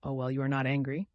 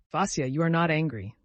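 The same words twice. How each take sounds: First: "you are not angry" with a rise on ANGRY; tentative question. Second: "you are not angry" as a raised statement, falling at the end; anxious coaxing. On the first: Friend asking Vasya for reassurance, tentative rising question. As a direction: turn "angry" upward into a question, near usual pitch. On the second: Friend checking on Vasya after the joke, coaxing statement. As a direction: stress NOT, then let "angry" fall. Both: A narrator's reading.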